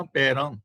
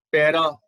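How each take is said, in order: First: ਪੈਰਾਂ with a nasal final vowel; correct reading. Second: ਪੈਰਾ with an oral ending, said louder; wrong reading. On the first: Teacher gives the right reading, ਪੈਰਾਂ with nasal ending. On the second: Teacher shows the misreading ਪੈਰਾ without nasal, louder. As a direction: end ਪੈਰਾ on a plain, non-nasal a. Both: Shown as a demonstration. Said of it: "ਪੈਰਾ ਨਹੀਂ ਪੜ੍ਹਨਾ".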